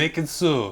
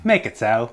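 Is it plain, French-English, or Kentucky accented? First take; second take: French-English; Kentucky. First: It is said like a Frenchman's English accent. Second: It is said in a Kentucky accent.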